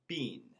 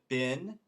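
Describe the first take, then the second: First: It is said the British way, like bean. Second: It is said the American way, like bin.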